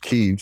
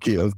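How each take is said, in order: First: The name is said the local way. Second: The name is said the familiar English way. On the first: This is how people there say it. The speaker calls it right. "how they pronounce it there" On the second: This is the habitual outsider pronunciation. The speaker calls it wrong. "I've always pronounced it Kiev"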